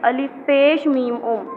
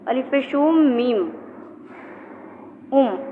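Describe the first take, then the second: First: The word pesh ends cleanly without extra vowel. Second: An extra vowel sound follows the word pesh. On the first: The speaker calls it right. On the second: The speaker calls it wrong.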